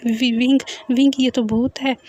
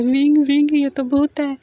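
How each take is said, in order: First: Frightened stutter on the name; mildly scared, halting delivery; stammering. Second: Higher, louder alarmed cry; frightened cry for help; open-mouthed fright. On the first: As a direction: trip over the first word nervously. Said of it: "वांगजी हकलाते हुए बोलता है". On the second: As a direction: wail it in panic, pitched up. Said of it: "वांगजी मुंह फाड़कर बोलता है". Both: A narrator's reading.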